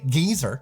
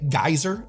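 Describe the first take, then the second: First: The first vowel sounds like 'ee'. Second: The first vowel sounds like 'eye'. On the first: This is the British way to say it. "Brits say geezer" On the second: This is the American way to say it. "Americans say geyser"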